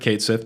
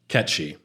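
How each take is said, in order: First: The name sounds like 'Kate Sith', two words. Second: The name sounds like 'Ketchi', two short syllables.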